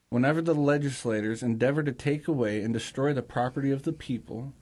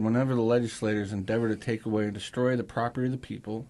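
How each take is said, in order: First: It is read at a slower pace. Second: It is read at a faster pace.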